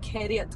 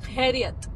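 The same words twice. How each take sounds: First: The first consonant is a plain k sound. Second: The first consonant is rasped deep in the throat. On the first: The speaker calls it wrong. "It's not khairiyat" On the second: The speaker calls it right. "It's khairiyat. From here"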